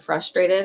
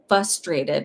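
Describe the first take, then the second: First: The first R sound is clearly pronounced. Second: The first R sound is left out.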